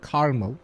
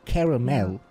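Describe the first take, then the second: First: The middle vowel is dropped, giving two syllables. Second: The middle vowel is pronounced, giving three syllables. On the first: The speaker calls it wrong. "I don't know why people pronounce it caramel" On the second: The speaker calls it right. "There's an A between, ... It's caramel"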